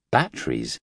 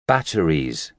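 First: Puzzled. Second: Said in the usual way. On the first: Acted. Nurse echoes unknown word. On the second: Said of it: "he said in English".

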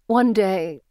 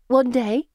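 First: "One day" falling and left hanging; trailing off. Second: "One day" high with a rising end; prompting question. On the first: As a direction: start "One day" then let it fade unfinished. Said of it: "she trails off". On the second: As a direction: lift "One day" to coax the speaker on. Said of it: "Anne prompts". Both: A narrator's reading.

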